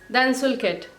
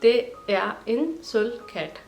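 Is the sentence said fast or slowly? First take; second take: fast; slowly. First: The sentence is spoken quickly and smoothly. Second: The sentence is spoken slowly, word by word. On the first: "पहले तो बहुत ही फास्ट बोलूँगी जैसे नेटिव लोग बात करते हैं" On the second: "फिर उसको मैं धीरे धीरे प्रोनाउंस करूँगी"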